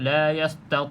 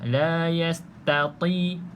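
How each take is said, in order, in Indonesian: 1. Bunyi t-nya cepat dan menebal. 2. Bunyi t-nya tipis dan terpisah jelas. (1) "Kalau laju sangat kadang-kadang bacaan tu laju" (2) "pastikan berbeza"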